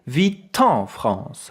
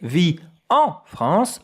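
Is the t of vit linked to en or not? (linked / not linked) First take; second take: linked; not linked. First: The t of vit is linked to en. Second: The t of vit is not linked to en. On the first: The speaker calls it right. "Here we have a vowel, I say" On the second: The speaker calls it wrong. "I don't say"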